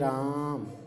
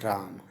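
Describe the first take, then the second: First: The first vowel is drawn out about three times longer. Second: The first vowel is held for a normal length. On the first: Someone is being called out to. "यहाँ पर हम रा को थोड़ा रघा के बोलते हैं, जो कि तिगुना समय तक बोलते हैं" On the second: It is the plain name. "एक सिंपल सा राम"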